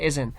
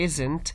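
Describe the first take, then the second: First: The T is light and barely heard. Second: The T is pronounced strongly and clearly. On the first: The speaker calls it right. "you have to say isn't" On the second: The speaker calls it wrong. "It's not very much stressed, so you don't have to say isn't"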